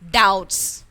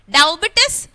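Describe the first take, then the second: First: The letter B is not sounded at all. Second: The letter B is sounded inside the word. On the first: The speaker calls it right. "what is the right pronunciation here?" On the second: The speaker calls it wrong. "No, it's wrong. It's wrong pronunciation"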